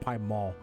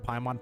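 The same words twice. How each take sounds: First: It is said in a French-style accent. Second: It is said in a plain English way.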